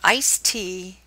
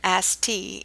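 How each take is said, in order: First: It is said in the local, non-Southern accent. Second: It is said in a Southern American accent. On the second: "in the South"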